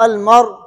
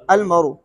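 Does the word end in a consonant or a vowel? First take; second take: consonant; vowel. First: The word ends on the consonant r. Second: The word ends with a short vowel.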